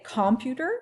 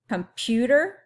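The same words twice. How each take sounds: First: The stress is on the first syllable. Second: The stress is on the second syllable. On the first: "is it this one" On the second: "this one"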